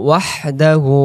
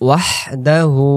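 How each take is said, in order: No difference in how they are said.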